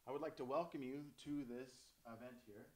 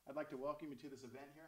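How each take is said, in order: First: It is said without a smile in the voice. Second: It is said with a smile in the voice.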